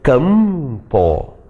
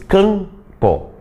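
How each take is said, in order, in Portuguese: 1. Os lábios fecham totalmente no som do m. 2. Os lábios ficam abertos; a vogal é nasal. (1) "da mesma maneira que tu pronunciaste mesa, tu pronuncias campo" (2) "Tu nem mexe os lábios para pronunciar esse M"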